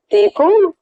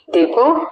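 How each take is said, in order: First: Sharp, much higher startled question; stunned surprise. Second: Said in the usual way. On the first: A narrator's reading. Ramya, hearing her father's voice on the phone, startled and incredulous. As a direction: gasp the name in disbelief. Stunned daughter repeats the name.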